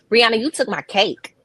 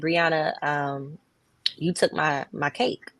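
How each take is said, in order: First: The voice sounds harsh and accusing. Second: The voice sounds calm and gentle. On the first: The listener answers defensively and the conflict escalates. The speaker calls it wrong. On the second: The listener answers with an apology. The speaker calls it right.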